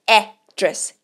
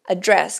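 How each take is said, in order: First: The stress is on the first syllable. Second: The stress is on the second syllable. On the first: It names a place where someone lives. "a sílaba tônica aqui é logo no começo da palavra" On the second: It means to discuss or speak about something. "também existe address"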